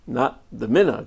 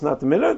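First: The word not is strongly emphasized. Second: The phrase is said flatly, with no strong emphasis. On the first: It is not the custom and should not be done. "And we shouldn't do it" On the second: It is simply not the custom. "So is it just not the minhag"

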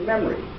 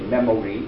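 First: The word is said with two syllables, the middle vowel dropped. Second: The word is said with three full syllables. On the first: The speaker calls it right. "We say memory" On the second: The speaker calls it wrong. "We don't say memory"

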